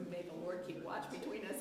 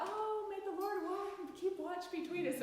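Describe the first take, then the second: First: Said in the usual way. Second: Mock sweet romantic. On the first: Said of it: "It was". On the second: Shown as a demonstration. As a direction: coo it like a soppy love note. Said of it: "wasn't a sweet romantic gesture".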